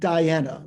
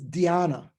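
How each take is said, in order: First: It sounds like the name Diana. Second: It starts with a 'dhy' sound. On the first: The speaker calls it wrong. "not Diana, like Prince Diana" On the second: The speaker calls it right. "the Sanskrit word is dhyana"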